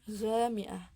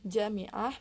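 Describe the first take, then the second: First: The word begins with a g-like consonant. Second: The word begins with a j consonant. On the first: This is how Egyptians say it in everyday speech. "mereka menggantinya dengan huruf ghain" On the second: This is the standard Arabic form. "huruf jim contohnya dalam lafal jami'ah"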